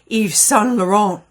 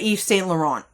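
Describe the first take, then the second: First: Saint is pronounced the French way, like 'son'. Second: Saint is pronounced the English way, like 'saint'. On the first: It sounds fancy and polished. "if you want to get fancy and say it like the customer service people" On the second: It avoids sounding snooty. "I pronounce the word saint even though it's supposed to be son"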